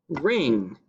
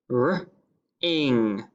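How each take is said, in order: First: Said in the usual way. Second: "R-ing" as r, pause, then ing; sounded out. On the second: Shown as a demonstration. Teacher sounding out the first syllable, "R-ing" in two parts. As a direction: break "R-ing" into r and ing. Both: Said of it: "The first syllable is".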